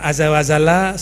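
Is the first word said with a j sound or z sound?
z sound. The first word is said with a z sound.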